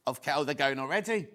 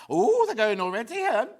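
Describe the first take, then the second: First: Said in the usual way. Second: Odd surprised tone. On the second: Real, not acted. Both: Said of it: "I don't know why I said it like that".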